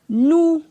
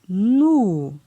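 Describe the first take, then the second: First: The syllable has a high tone. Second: The syllable has a falling tone. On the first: "Ton haut" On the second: "la syllabe avec un ton descendant"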